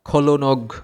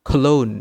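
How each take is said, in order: First: The word is said with a g sound. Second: The word ends without any g sound. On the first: The speaker calls it wrong. "এইভাবে উচ্চারণ করি, জি সহ উচ্চারণ করি, তাহলে কিন্তু হবে না" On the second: The speaker calls it right. "এটার সঠিক উচ্চারণ হবে খলোন"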